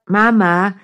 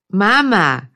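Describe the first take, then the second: First: Lightly voiced bored kid, rising whine; drawn-out nagging call, rising at the end; whiny child calling. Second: Lightly voiced kid, falling demand; firm whiny call, dropping at the end; insistent child call. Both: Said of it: "langweilt sich ein Kind".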